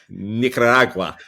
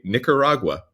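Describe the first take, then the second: First: It is said Spanish-style with rolled R sounds. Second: It is said with a plain English accent. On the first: The speaker calls it wrong. "you cannot roll your R's and have the tongue going in every direction" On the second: The speaker calls it right. "when you say Nicaragua"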